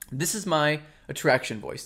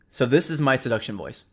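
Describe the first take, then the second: First: The voice is light, spoken from the throat. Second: The voice is deep, spoken from the diaphragm.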